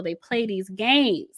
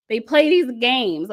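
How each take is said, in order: First: Said in the usual way. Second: They play these games said louder and slower, with a lift on these; emphatic repeat. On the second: Real, not acted. Speaker repeating to warn about cult leaders, emphatic.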